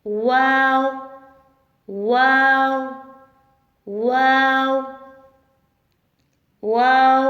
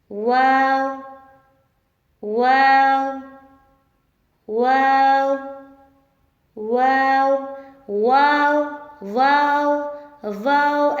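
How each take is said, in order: First: वाव with both lips rounded and the sound pushed out; teacher's model of a rounded वाव; rounded waw. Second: वाव with the lips not rounded, said as the mistake; teacher showing the wrong वाव; wrong waw. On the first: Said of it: "दोनों होंठों को गोल करके". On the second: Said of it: "ऐसे नहीं पढ़ना।". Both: Shown as a demonstration.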